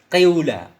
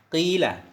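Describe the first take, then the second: First: The first vowel is i tinged with u. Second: The first vowel is a pure long i. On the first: "Qiula seolah-olah ada bunyi dhammahnya" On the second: "Kalau dikasrahkan fa berarti innya dari waw menjadi ya"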